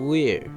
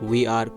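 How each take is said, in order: First: It is said as one contracted syllable. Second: It is said as two full words. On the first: "वी आर को वेयर" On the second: "वी आर को वेयर"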